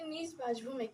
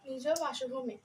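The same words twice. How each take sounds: First: নিজ ends on a bare consonant sound. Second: নিজ ends with an added o vowel. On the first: The speaker calls it wrong. "আমরা কিন্তু বলি নিজ বাসভূমে, কিন্তু না" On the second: The speaker calls it right. "আসলে উচ্চারণ হবে"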